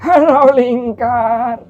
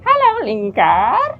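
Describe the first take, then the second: First: An old man's character voice. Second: A goblin character voice. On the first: "suara kakek-kakek" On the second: "suara goblin"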